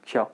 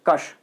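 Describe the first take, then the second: First: It is said the usual everyday ksha way. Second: It is said as separate k and sh sounds. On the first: This is how people commonly say it. "लेकिन हम बोलते क्या इसे" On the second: This is how the letter should really sound. "जो actual उच्चारण है वो ऐसा होना चाहिए"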